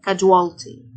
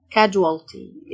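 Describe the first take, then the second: First: Casualty with the su said as j, KA-jwal-ty; teacher repeats casualty with the j sound; clear pronunciation demo. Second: Casualty drawn out very slowly, syllable by syllable; teacher stretches casualty for the class; slow teaching demo. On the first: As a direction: model casualty at normal speed, su as j. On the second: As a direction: stretch casualty out so students catch each sound. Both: Shown as a demonstration. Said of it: "السيو تنطق الجه".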